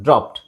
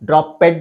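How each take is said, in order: First: The ending is a short t sound. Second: The ending is an extra 'ed' syllable. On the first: The speaker calls it right. "ಇಲ್ಲಿ ಟಿ ಹಾಕ್ಬೇಕು" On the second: The speaker calls it wrong. "ಡ್ರಾಪೆಡ್ ಅಂತ ಹೇಳಬಾರ್ದು"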